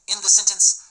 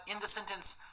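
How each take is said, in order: No difference in how they are said.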